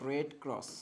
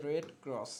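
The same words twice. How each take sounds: The two takes are said the same way.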